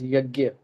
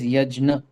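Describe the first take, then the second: First: The middle cluster is said as gy. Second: The middle cluster is said as jn. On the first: This is the colloquial form. "the colloquial term which is yagya" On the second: This is the more refined form. "I pronounce it as yajna"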